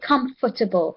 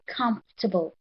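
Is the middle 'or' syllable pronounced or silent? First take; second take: pronounced; silent. First: The middle 'or' syllable is clearly pronounced. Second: The middle 'or' syllable is silent. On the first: The speaker calls it wrong. "sometimes we like we almost want to say comfortable" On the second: The speaker calls it right. "the O there, class, is actually silent. You can't hear it"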